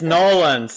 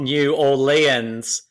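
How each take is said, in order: First: The name is squeezed into two quick syllables. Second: The name is said in full, syllable by syllable. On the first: The speaker calls it right. "it's Nolans" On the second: The speaker calls it wrong. "not New Orleans"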